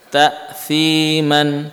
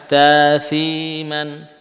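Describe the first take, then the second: Both takes have the same delivery.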